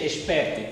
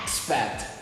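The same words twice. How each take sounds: First: It is pronounced with Portuguese sounds. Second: It is pronounced with English sounds.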